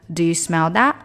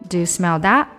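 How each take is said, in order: Both takes have the same delivery.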